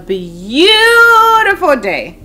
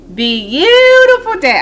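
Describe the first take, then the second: First: The T in beautiful is softened. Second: The T in beautiful is clearly released.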